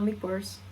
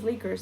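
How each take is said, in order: First: The word is pronounced the Italian way. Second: The word is pronounced the English way. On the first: The speaker calls it wrong. "not liquors. ... it was coming out in Italian a little bit" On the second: The speaker calls it right. "I think it's liquors"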